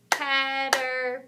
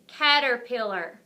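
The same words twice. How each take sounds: First: "Caterpillar" slowly broken into four syllables; real slow. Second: Said in the usual way. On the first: Shown as a demonstration. Teacher helping with a big long word, "Caterpillar" real slow. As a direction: say "Caterpillar" real slow, a clap per part. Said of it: "Let's say it real slow". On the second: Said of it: "I'm gonna say the word".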